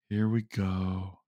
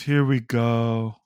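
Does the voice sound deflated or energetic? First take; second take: deflated; energetic. First: The voice is flat, low and gloomy. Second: The voice is lively and full of energy. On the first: Hope has run out by the end. "like starting to sound like Eeyore" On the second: Hope is still high early on. "the enthusiasm"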